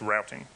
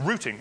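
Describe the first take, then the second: First: It is said with an American accent. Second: It is said with an English accent.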